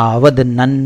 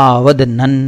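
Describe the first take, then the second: The two takes are said the same way.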